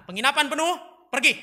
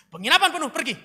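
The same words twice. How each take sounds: First: Loud, raised line reading; drama line. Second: Loud, high, ferocious shout; crueler, possessed. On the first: Drama teacher gives [name] his line, loud and high. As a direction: deliver a simple eviction line, loudly. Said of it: "Teksnya cuma sederhana". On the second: [name] rehearses evicting Mary, shouting fiercely. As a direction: throw them out like someone possessed. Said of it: "lebih kejam, matamu kayak kerasukan setan". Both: Acted.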